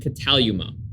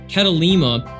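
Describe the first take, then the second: First: The third syllable has an oo vowel. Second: The third syllable has an ee vowel. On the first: The speaker calls it right. "It's actually kataluma" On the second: The speaker calls it wrong. "my pronunciation that I used was totally wrong"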